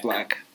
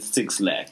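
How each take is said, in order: First: The name is said as one syllable, black. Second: The name begins with the word six. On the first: The speaker calls it right. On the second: The speaker calls it wrong. "you're not wrong for pronouncing it Six Lack"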